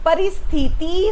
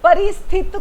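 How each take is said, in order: First: The word ends in an 'i' vowel. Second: The word ends in a 't' consonant. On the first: The speaker calls it right. "परिस्थिति होता है" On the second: The speaker calls it wrong. "परिस्थित कोई शब्द नहीं होता"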